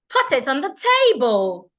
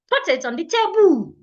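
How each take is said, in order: First: The stress is on the first syllable of table. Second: The stress is on the second syllable of table. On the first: The speaker calls it right. "I would rush over the second part" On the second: The speaker calls it wrong.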